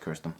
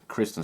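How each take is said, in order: First: The name starts with the sounds 'Kir'. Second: The name starts with the sounds 'Kris'. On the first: The speaker calls it wrong. "I always say that wrong" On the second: The speaker calls it right. "Kristen Stewart"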